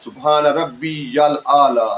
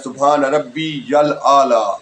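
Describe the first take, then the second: The two takes are said the same way.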